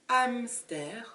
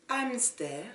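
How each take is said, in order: Both takes have the same delivery.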